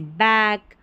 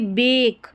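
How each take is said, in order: First: The vowel is an open 'a' as in cat. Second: The vowel is a closer 'e' as in bed. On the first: The speaker calls it right. "ऐक sound इसका निकालना है" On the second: The speaker calls it wrong. "जैसे उच्चारण आपने गलत किया ना, तो ये बेक ऐसे पढ़ेंगे"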